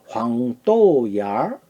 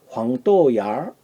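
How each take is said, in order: First: It is said at a slow, careful pace. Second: It is said quickly, the middle syllable weakened.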